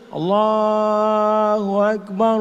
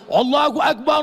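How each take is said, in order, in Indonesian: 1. Dikumandangkan dengan pelan dan lembut. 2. Dikumandangkan dengan lantang dan keras. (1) "Itu azan untuk bayi" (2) "azan untuk mengusir rasa takut"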